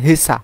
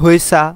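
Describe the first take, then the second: First: The first syllable is a plain he. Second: The first syllable has a glide like hwe. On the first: "তারা হেসার মতোই বলে থাকে হেসা" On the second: "অনেকে বলে থাকেন হয়েসা"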